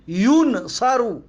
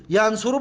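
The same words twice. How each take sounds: First: ینصرو sounded out as yun-sa-ru; u then a in ینصرو; passive vowels. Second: Said in the usual way. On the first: Shown as a demonstration. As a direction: break ینصرو in two, "yun, saru".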